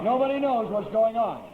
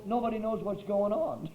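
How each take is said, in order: First: Louder, laughing through the words. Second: Said in the usual way. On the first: Real, not acted. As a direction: laugh it out at the absurdity. Repeated line, now laughing aloud.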